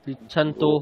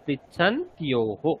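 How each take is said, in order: First: The t goes straight into o, no y sound. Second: A y glide follows the t before o. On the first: The speaker calls it wrong. "পৃচ্ছান্তোহ নয়, এখানে জফলা আছে" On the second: The speaker calls it right. "একদম ঠিক হয়েছে"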